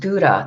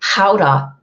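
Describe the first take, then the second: First: It is said the American way. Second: It is said the Dutch way.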